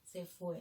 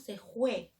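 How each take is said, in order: First: The word starts with a clear F sound. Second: The word starts with a raspy J sound. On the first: This is the standard way to say it. "en vez de decir" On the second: This is how people from the Amazon region say it. "La F por la J y la J por la F"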